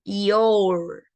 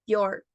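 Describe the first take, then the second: First: "your" said as "i-o-u" in one glide. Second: "your" said like "yor", only O and R. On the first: Teacher showing the students another way to say "your". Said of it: "podemos pronunciar I, O, U". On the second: Teacher showing the students how to say "your". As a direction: say "your" with just the O and R. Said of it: "pronunciamos solamente la O y la R". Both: Shown as a demonstration.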